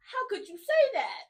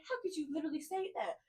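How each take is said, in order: First: Higher and louder, laughing, hammed-up hurt disbelief; mock offended disbelief. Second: The same complaint said softer, with less bite; quietly wounded, letting the hurt sink in; softer hurt disbelief. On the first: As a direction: playfully fake outrage with a laugh on it. Mock outrage at being told off. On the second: Retold or imitated.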